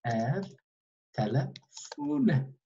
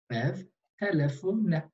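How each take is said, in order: First: Each sound drawn out slowly; slow classroom demonstration; slow model reading. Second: Said in the usual way. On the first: Shown as a demonstration. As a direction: say it very slowly so students copy.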